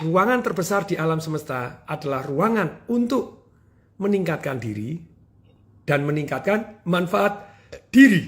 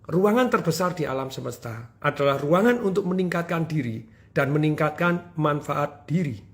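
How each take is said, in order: First: The sentence is spoken slowly and deliberately. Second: The sentence is spoken at a normal pace.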